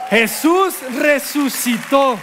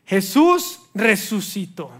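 First: Louder, higher, slow proclamation; Jesús resucitó proclaimed slow and triumphant. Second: Said in the usual way. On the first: Shown as a demonstration. Preacher announces the resurrection, triumphant.

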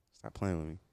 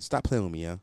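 First: Low, soft, seductive purr; sexy voice. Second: Said in the usual way. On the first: Shown as a demonstration. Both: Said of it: "I put the sexy voice on".

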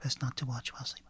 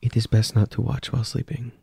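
First: Fast, much softer whisper. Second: Even, measured character line; calm hostess voice. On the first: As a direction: echo it under your breath. Player echoes hostess, hushed. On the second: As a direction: speak as the polite, unblinking hostess. GM speaks as the hostess. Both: Acted.

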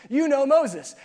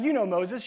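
First: "You know Moses" louder, with "Moses" punched high; emphatic. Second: Said in the usual way. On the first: Shown as a demonstration. Preacher reminding the congregation, emphatic on "Moses". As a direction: drive "Moses" home.

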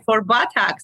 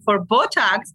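First: Botox said like "buttocks", BAH-tahks. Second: Botox said BOH-tahks, with a long O; Botox, long first O. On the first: Explaining what the British client meant, Botox sounding like buttocks. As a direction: open the first vowel of Botox to "bah". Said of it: "he with his accent". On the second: Explaining the mix-up in her booking, Botox said BOH-tahks. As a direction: say Botox with a round "boh" at the start. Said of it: "me with my accent". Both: Shown as a demonstration.

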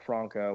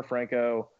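First: "Franco" as FRAHN-koh, broad A; self-corrected "Franco" with an open ah; corrected Franco pronunciation. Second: "Franco" as FRANK-oh, short A; Americanized Franco. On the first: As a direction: say "Franco" with the A of "father". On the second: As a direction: say "Franco" with the A of "bank". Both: Real, not acted. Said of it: "uh, or Franco".

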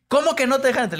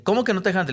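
First: Much higher, louder, shrill indignant question; outraged disbelief. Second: Raised, incredulous question, louder; retelling an outraged doorman who won't believe it; indignant disbelief. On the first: Producers demanding to know why he was refused, shrill outrage. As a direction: producers storming out to defend him. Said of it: "salieron los productores de lol por mí". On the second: Asking why they won't let him in, raised and incredulous. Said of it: "Y me dice". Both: Retold or imitated.

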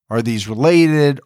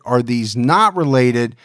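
First: Said in the usual way. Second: Not stressed, held a little longer. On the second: Shown as a demonstration. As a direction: lean on the word not.

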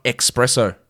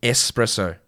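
First: EXPRESSO with a hard K sound; the wrong "espresso", with an X; mispronounced espresso. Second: ESPRESSO with a clean S, no K; careful "Espresso", no X in it; correct espresso. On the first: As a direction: say it wrongly as "ex-presso". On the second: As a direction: say "Espresso" as "ess-presso". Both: Shown as a demonstration. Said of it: "It's not espresso".

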